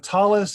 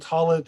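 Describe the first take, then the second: First: It is said in the Ashkenazi pronunciation. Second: It is said in the Sephardi pronunciation.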